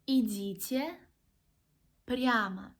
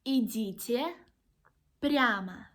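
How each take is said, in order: No difference in how they are said.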